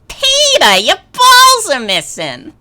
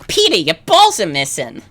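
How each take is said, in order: First: A closer imitation of the female cartoon voice. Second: A looser imitation of the female cartoon voice. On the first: The speaker calls it right. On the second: The speaker calls it wrong.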